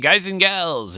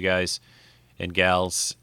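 First: It is said in a 1950s announcer voice. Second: It is said in his ordinary speaking voice.

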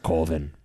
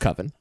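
First: The word is said the title's own way. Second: The word is said the ordinary dictionary way. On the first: This is how the film's title is meant to sound. The speaker calls it right. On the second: This is not how the film's title is meant to sound. The speaker calls it wrong. "not pronounced Coven"

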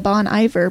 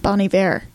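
First: The name is said with an English pronunciation. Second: The name is said with a French pronunciation. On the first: The speaker calls it wrong. "who I used to call Bon Iver" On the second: The speaker calls it right. "is actually pronounced Bon Iver. ... very French"

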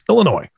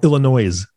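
First: The final S is silent. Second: The final S is sounded.

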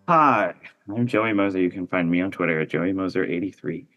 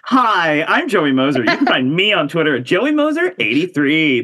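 First: It is said with low energy. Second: It is said with high energy.

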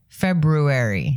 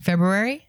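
First: The word is said slowly. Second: The word is said fast.

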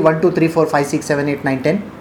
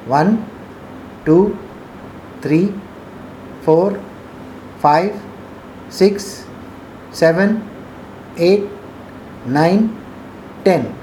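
First: The counting is said fast. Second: The counting is said slowly.

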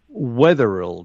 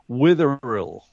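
First: The first syllable sounds like 'weth'. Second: The first syllable sounds like 'with'. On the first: The speaker calls it wrong. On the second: The speaker calls it right. "correct? Perfect"

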